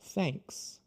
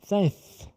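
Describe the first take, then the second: First: The tongue pulls back, ending in clear s. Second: The tongue comes out again, ending lisped. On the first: The speaker calls it right. "Não pode colocar depois, tem que ser o S" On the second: The speaker calls it wrong. "eu já tive aluno falar thanks"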